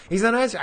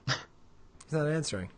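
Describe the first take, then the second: First: Louder, higher disbelief; shocked exclaim. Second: Said in the usual way. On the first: Real, not acted. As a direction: burst out in disbelief.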